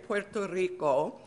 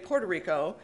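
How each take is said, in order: First: The name is pronounced with Spanish sounds. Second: The name is pronounced with English sounds. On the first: "I can say it properly" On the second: "a lot of people on the island pronounce it Puerto Rico as well"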